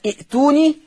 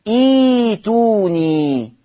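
First: ائتوني with a short i and a glottal catch before tuuni; crisp i'-tuuni for ائتوني; hamza pronounced. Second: إيتوني very slow, iii-tuuu-niii with no glottal catch; hamza turned to yaa. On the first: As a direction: cite ائتوني with the hamza sounded. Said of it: "يبقى كلمة ائتوني تقرأ إيه؟". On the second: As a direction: answer with a long, smooth ee opening إيتوني. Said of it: "تقرأ إيه". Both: Shown as a demonstration.

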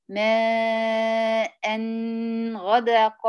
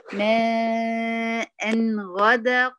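First: "ماء غدق" with the nasal hum stretched far too long; "ماء غدق" showing the wrong, over-long ghunnah; drawn-out ghunnah. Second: "ماء غدق" with only the letter's natural short nasal hum; "ماء غدق" recited the right way; correct ghunnah. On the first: Teacher mimicking a student's overlong ghunnah on "ماء غدق". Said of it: "انت ليه طولت في الغنة كده". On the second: Teacher giving the correct version of "ماء غدق". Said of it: "امال هي ايه". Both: Shown as a demonstration.

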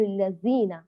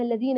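First: Buzzing Z in place of th in الذين; zay for dhal. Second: Hard D in place of th in الذين; dal for dhal. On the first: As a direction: say الذين as "allazina". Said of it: "يقرؤونها بالزاي". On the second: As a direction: say الذين as "alladina". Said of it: "يقلب الذال دالا". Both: Shown as a demonstration.

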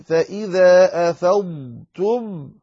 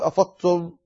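First: أفضتم slow, dad held; clear dad. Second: أفضتم with the dad swallowed into ta; wrong, dad merged. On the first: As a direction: sound the dad of أفضتم fully. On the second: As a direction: clip أفضتم as أفتم. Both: Shown as a demonstration. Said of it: "لا تقل".

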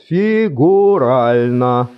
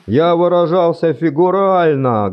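First: Фигурально drawn out slowly and louder; slow emphatic repeat. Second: Фигурально with a falling stress; firm stress on фигурально. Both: Acted.

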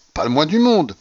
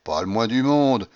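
First: "monde" pitched higher, then falling; emphatic denial. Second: Said in the usual way. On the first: A narrator's reading. Young man contradicting the general, stressing "monde" emphatically. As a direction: insist harder, leaning on "monde".

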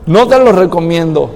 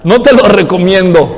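First: Said in the usual way. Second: Laughing as he says it, louder; laughing advice. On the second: Real, not acted. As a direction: chuckle through the warning. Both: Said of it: "repeated advice".

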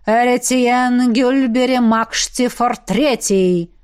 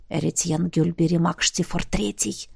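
First: Slow, resonant summoning; booming incantation. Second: Low, hushed prompting; feed him the name under your breath; whispered prompt. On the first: Necromancer calling the dead by full name, booming. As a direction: intone the name slowly, like a spell. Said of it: "гулко произнёс Эзергаст". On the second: Roderick prompting the necromancer with a name, whispered. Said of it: "шёпотом подсказал Родерик". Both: A narrator's reading.

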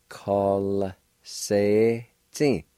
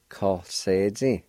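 First: Very slow demo. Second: Steadier demo. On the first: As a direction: Call se ti stretched out very slowly. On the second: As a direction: Call se ti said slowly but joined up. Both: Shown as a demonstration. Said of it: "like this".

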